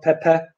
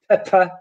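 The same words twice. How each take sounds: First: The first consonant has no puff of air. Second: The first consonant has a puff of air. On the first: The speaker calls it wrong. "not pepper" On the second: The speaker calls it right. "In English, they are"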